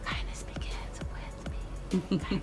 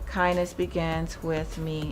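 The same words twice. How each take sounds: First: It is spoken in a whisper. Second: It is spoken in a normal voice.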